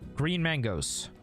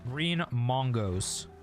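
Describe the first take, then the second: First: The first vowel of mango is an 'a' sound. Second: The first vowel of mango is an 'o' sound.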